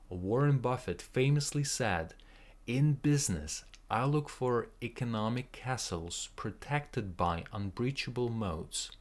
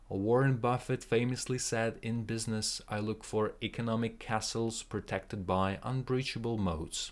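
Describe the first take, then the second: First: It is said at a normal pace. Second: It is said at a faster pace.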